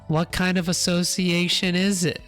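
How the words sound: The put-on voice sounds strained in the throat. The speaker calls it right. "That sounds better. A little strain on the throat"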